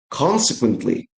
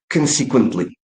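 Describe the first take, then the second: First: The stress is on the first syllable. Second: The stress is on a later syllable. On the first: The speaker calls it right. "The stress should go to the first syllable" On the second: The speaker calls it wrong. "there is no word consequently"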